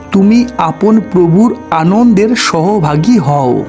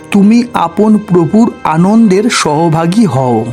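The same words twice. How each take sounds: No difference in how they are said.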